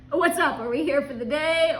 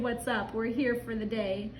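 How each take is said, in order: First: Brighter upbeat greeting. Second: Said in the usual way. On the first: Retold or imitated. Husband greets the worker, perky and upbeat. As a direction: chirp it out like a cheery tourist. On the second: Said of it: "So I hopped out and said".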